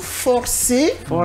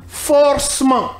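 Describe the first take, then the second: First: The vowel after 'forc' is clearly pronounced. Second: The vowel after 'forc' is dropped. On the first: The speaker calls it right. "mais c'est plutôt forcément. ... parce que le E, il est accentué" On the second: The speaker calls it wrong. "Vous entendez par exemple des gens dire forcement"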